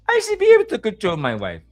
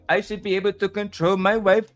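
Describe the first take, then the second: First: It is said in a soft voice. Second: It is said in a normal voice.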